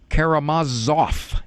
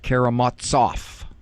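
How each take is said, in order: First: The middle consonant sounds like an English Z. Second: The middle consonant does not sound like English Z. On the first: The speaker calls it right. "the Russian Z is pronounced like the English Z, so it is Karamazov" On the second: The speaker calls it wrong. "not Karamazov"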